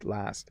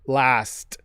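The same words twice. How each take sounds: First: The S is soft, ending in a D-like sound. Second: The S and T are crisp and hard. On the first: "a really soft S that ends in a D" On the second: "here's a hard pronunciation last"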